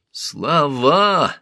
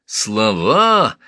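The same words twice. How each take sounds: First: Sharp high snarled word; angry snarl. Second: Louder snarled repeat; angry snarl. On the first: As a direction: spit it out in fury. Thutmose snarls in fury. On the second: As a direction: snarl it again, harder. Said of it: "оскалился Тутмос". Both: Acted.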